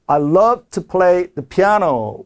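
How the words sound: The voice stretches 'piano' and carries on. The sentence continues. The speaker calls it right. "piano 그러면서 약간 끌어주는 거예요"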